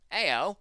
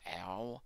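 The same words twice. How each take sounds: First: Loud, high Cockney yelp; Cockney accent. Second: Said in the usual way. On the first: Shown as a demonstration. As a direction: cry it out in mock Cockney. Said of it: "that's my intriguing Cockney accent". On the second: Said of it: "That's how you read that, not ow".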